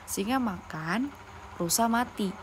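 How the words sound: There is a pause after makan. The lion ate, and separately the deer died. "Jadi singa itu makan, rusa mati"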